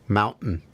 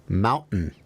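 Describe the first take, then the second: Both takes have the same delivery.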